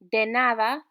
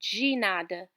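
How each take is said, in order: First: It is pronounced with Spanish sounds. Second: It is pronounced with Portuguese sounds. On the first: "de nada in Spanish" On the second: "de nada in Portuguese"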